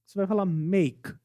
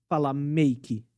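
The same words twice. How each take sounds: First: "make" ending dry on the k, no vowel; correct make. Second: "make" with an extra final i vowel, mejki; wrong make with i. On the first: Teacher giving the right ending. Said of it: "Acaba no som da consoante K". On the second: Teacher showing the wrong ending. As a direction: add an i after the k of "make". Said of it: "você não vai falar". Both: Shown as a demonstration.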